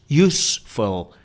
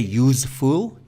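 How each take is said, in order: First: The ending sounds like 'full', a short vowel. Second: The ending sounds like 'fool', a long vowel. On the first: The speaker calls it right. "We don't say fool, we say full" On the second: The speaker calls it wrong. "we don't say useful"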